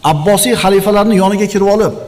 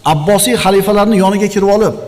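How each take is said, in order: Both takes have the same delivery.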